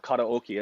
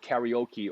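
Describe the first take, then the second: First: It uses the Hawaiian pronunciation. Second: It uses the common English pronunciation.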